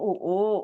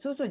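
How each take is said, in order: First: The consonants are dropped, leaving only vowels. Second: Both consonants are pronounced clearly. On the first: The speaker calls it wrong. "jangan mau minum U U" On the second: The speaker calls it right. "ya bilang susu"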